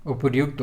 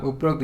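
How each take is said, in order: First: उपर्युक्त with r joined to yu; correct form. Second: उपरोक्त with an o sound after upar; incorrect form. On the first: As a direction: say उपर्युक्त with a clear -ryukt ending. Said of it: "होता है". (सही रूप उपर्युक्त, र्यु के साथ) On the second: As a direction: run it together as उपरोक्त, no y sound. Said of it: "ये नहीं होता है". (गलत रूप उपरोक्त, ओ की मात्रा के साथ) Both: Shown as a demonstration.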